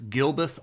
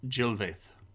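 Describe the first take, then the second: First: The name begins with a hard G sound. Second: The name begins with a soft J sound. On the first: The speaker calls it wrong. "I'm going to say it wrong" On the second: The speaker calls it right. "because the G. Yeah, Jill"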